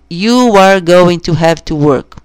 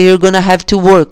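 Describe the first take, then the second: First: "Going to" is said in full, unreduced. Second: "Going to" is reduced to a quick "gonna". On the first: "em vez de" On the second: "uma forma muito informal e com defeito... Falar rápido, é you're gonna"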